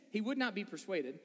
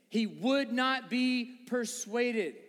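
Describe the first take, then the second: First: Said in the usual way. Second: "He would not be persuaded" very slow, each word weighted; emphatic word-by-word. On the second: Real, not acted. Preacher repeating the verse, "He would not be persuaded" slow and emphatic.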